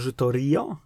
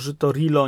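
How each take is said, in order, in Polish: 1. Środkowa spółgłoska to dźwięk Y. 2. Środkowa spółgłoska to dźwięk L. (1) "nie Żytorio?" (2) "Dlaczego Żytorilo"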